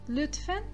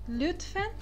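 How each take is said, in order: Both takes have the same delivery.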